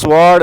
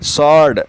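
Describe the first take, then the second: First: The W sound is pronounced in the word. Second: The W sound is left out of the word. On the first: The speaker calls it wrong. "स्वॉर्ड नहीं कहते" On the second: The speaker calls it right. "इसमें डब्लू silent है"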